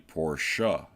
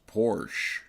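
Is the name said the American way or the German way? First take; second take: German; American. First: The name is said the original German way. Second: The name is said the common American way. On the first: This is how the maker's name is really said. The speaker calls it right. "but it is actually Porsche" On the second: This is how people in the US usually say it. The speaker calls it wrong. "those of us here in the U S would like to say it's just Porsche"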